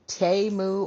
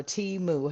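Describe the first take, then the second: First: "Temu" said as TAY-moo; alternative pronunciation. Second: "Temu" said as TEE-moo; alternative pronunciation. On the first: Offering viewers one way to say it, "Temu" as TAY-moo. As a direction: say "Temu" with an AY in the first syllable. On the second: Offering viewers the other way, "Temu" as TEE-moo. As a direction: say "Temu" with an EE in the first syllable. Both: Shown as a demonstration. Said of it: "however you want to say it".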